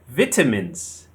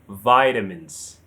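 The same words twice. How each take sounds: First: British pronunciation, stressed on the second syllable. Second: American pronunciation, stressed on the first syllable. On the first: "In British English, it's vitamins. The stress is on the second syllable" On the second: "By an American, they say vitamins. The stress is on the first syllable"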